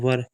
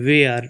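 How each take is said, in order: First: The vowel is short, sounding like 'wer'. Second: The vowel is drawn out, sounding like 'wair'. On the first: "इसको वर पढ़ते हैं" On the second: "इसको वेयर भी पढ़ देते हैं"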